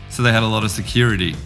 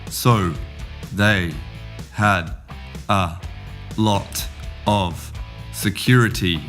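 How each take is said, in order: First: Words blend fast, with 'of' reduced to 'uh'. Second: Each word is said slowly and clearly, separately. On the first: "And the jungle" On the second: "We'll start in the greenhouse"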